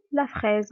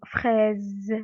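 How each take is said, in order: First: Said in the usual way. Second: "fraise" stretched out with a long final z; sound demonstration. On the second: Shown as a demonstration. Teacher letting pupils hear the Z, "fraise" drawn out. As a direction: draw out "fraise" slowly, buzzing the z. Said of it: "On entend le son Z".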